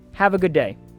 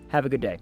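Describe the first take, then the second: First: It sounds warm and genuinely meant. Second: It sounds flat and not really meant.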